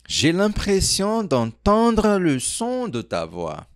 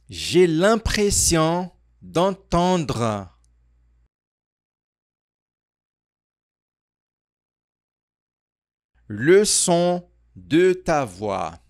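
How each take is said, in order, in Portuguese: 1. É dita de forma fluida, em velocidade natural, sem pausas. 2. É dita devagar, com uma pausa no meio da frase. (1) "de uma maneira mais natural" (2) "repete comigo aqui a frase completa"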